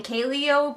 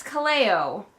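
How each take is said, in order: First: Kaleo as habitual KAY-lee-oh; mispronounced name. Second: Kaleo as kuh-LAY-oh, middle syllable punched; corrected pronunciation. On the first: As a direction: put the stress up front in Kaleo, KAY-lee-oh. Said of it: "probably gonna keep saying Kaleo". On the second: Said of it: "I do know that it's Kaleo". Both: Shown as a demonstration.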